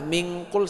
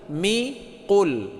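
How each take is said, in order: First: An n sound closes the syllable before qul. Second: The syllable before qul ends without an n. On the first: The speaker calls it wrong. "min qul salah" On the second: The speaker calls it right. "tapi mi qul"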